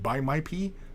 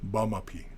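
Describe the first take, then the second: First: The first syllables sound like 'buy my'. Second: The first syllables sound like 'bah-ma'. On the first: The speaker calls it wrong. "if you mispronounce it, it sounds like buy my pee" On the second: The speaker calls it right. "it's bama, ba, bama pee"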